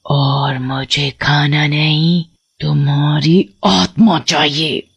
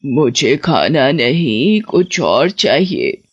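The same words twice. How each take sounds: First: Low, slow witch voice, savouring each word; a witch claiming a soul; menacing witch. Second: Put-on low, slow, secretive old woman; hidden witch. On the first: Acted. Witch telling the boy she wants his soul, low and slow. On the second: Witch under a blanket, to the boy, slow and low. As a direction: drag the words out, hiding something. Witch disguised, asks for something else.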